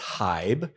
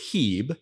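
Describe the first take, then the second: First: The vowel sounds like 'eye'. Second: The vowel sounds like a long 'ee'. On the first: The speaker calls it wrong. "if somebody slips and says Hybe" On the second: The speaker calls it right. "the I is silent, so it's Hebe"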